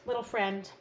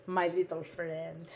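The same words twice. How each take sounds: First: Said in the usual way. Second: "My little friend" said lower and slow, leaning on "my"; a low, drawn-out "my little friend" like a movie tough guy; playful slow growl. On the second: Shown as a demonstration. Crafter greeting her punch in a low, slow mock-tough voice.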